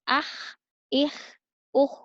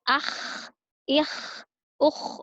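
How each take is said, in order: First: The throat sound is light, without snoring. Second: The throat sound is harsh, like snoring. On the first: The speaker calls it right. "Cukup kha biasa ... Tidak perlu sampai mengorok" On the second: The speaker calls it wrong. "terdengar seperti orang mengorok, tidak boleh"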